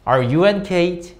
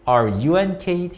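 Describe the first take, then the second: Both takes have the same delivery.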